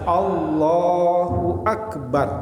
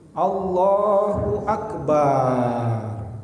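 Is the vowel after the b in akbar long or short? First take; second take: short; long. First: The vowel after b in akbar is kept short. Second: The vowel after b in akbar is drawn out. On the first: The speaker calls it right. "tapi harus Allahu akbar ya" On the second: The speaker calls it wrong. "tidak boleh memanjangkan huruf ba di dalam lafaz akbar ... nggak boleh ya"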